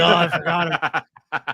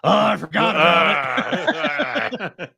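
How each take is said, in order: First: It is said in his ordinary voice. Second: It is said in an imitation of Lucas.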